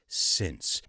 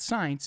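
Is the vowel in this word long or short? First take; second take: short; long. First: The vowel is a short 'i' sound. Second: The vowel is a long 'eye' sound. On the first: The speaker calls it right. "it's since" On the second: The speaker calls it wrong. "it's not science"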